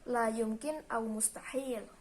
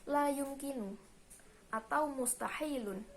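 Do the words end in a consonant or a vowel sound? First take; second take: consonant; vowel. First: The words end on a bare consonant. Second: The words end with an added vowel ending. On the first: This is the Saudi colloquial form. "belakangnya itu ... harokatnya itu disukun" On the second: This is the formal standard form. "dalam bahasa Fusha"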